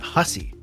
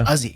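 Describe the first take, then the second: First: The word begins with an H sound. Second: The word begins without an H sound. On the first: This is the usual pronunciation outside Newfoundland. "is not Hussey" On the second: This is how people in Newfoundland say it. "Without the H"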